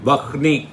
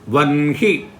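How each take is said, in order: First: The n sound comes after the h sound. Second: The n sound comes before the h sound. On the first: The speaker calls it wrong. "not Vahni" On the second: The speaker calls it right.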